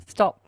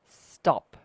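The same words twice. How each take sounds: First: Short, louder firm stop. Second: "Stop" said firm and louder, drawn out; definite stop. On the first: Retold or imitated. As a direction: halt him with one word. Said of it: "And I had to say". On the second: Shown as a demonstration. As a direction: cut him off with a definite "Stop". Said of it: "like that, really, like, definite".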